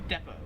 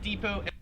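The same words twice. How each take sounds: First: It is said with an Australian pronunciation. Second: It is said with an American pronunciation. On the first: "In Australia, they pronounce it" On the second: "Americans, we pronounce it"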